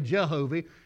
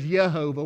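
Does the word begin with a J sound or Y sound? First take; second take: J sound; Y sound. First: The word begins with a J sound. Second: The word begins with a Y sound. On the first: "but we often say Jehovah" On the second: "He says Jehovah with a Y instead of a J"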